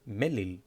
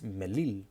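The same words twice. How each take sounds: First: The stress is on the first syllable. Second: The stress is on the second syllable. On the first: The speaker calls it wrong. "it's not melil. It's not uh, emphasized on the first vowel" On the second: The speaker calls it right. "It's melil. The symbol is in the second one"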